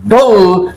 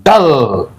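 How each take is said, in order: First: "dull" said "dol", rhyming with "bull" and "pull"; teacher showing the mistaken "dull" with a short oo; wrong vowel on dull. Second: "dull" said "dəl", with the short a-sound "uh" for U; teacher giving the correct "dull" with a short a. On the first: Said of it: "it should be pronounced as". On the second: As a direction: say "dull" with U like the a in "but". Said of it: "U to be pronounced as A". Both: Shown as a demonstration.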